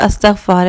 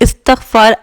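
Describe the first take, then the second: First: The word does not begin with an 'i' vowel. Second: The word begins with an 'i' vowel. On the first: "या अस्तग़फ़ार है" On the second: "इस्तग़फ़ार आई से है"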